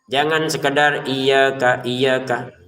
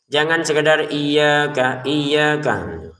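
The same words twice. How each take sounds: No difference in how they are said.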